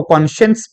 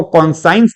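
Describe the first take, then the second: First: कॉन्शियंस as "kon-shuns"; correct pronunciation. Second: कॉन्साइंस as "kon-science"; wrong pronunciation. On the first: Teacher gives students the correct reading, कॉन्शियंस as kon-shuns. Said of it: "इसको कॉन्शियंस पढ़ा जाता है". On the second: Teacher rejects the common reading, कॉन्साइंस as kon-science. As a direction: sound a long "sai" in कॉन्साइंस. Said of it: "इसको कॉन्साइंस नहीं". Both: Shown as a demonstration.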